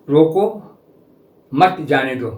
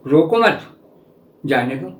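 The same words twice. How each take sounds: First: रोको alone, a clear break, then मत जाने दो; pause after रोको. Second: रोको मत run together, a break, then जाने दो; pause after मत. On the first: Teacher showing an ambiguous sentence, pause after रोको. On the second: Teacher showing the other reading, pause after रोको मत. Two readings of ambiguous sentence. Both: Shown as a demonstration.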